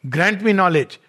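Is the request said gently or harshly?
harshly. It is said harshly with a hard tone. "in a very harsh way"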